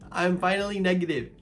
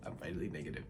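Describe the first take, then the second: First: Higher, louder with joy; excited. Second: Quiet murmured relief. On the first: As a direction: celebrate finally. Happy repetition. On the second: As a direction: lower and softer, to herself. Repeated quietly. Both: Real, not acted.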